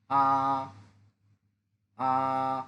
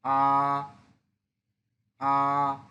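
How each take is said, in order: First: আ held level and drawn out; Mandarin first tone. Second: আ rising upward, firmly voiced; Mandarin second tone. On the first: Teacher shows students the first tone, level and long. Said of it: "টেনে বলতে হবে". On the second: Teacher shows students the second tone, rising. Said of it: "second tone". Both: Shown as a demonstration.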